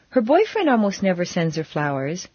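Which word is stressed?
boyfriend. The stress falls on the word boyfriend. Someone other than the boyfriend sends flowers. "but her sisters always do"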